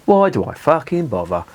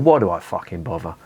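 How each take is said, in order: First: Higher, exasperated repeat of Why do I fucking bother. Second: Said in the usual way. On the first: Shown as a demonstration. Beer reviewer exasperated with himself, exasperated. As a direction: throw up your hands on Why do I fucking bother. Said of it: "repeated with exasperation". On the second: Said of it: "said twice, second marked".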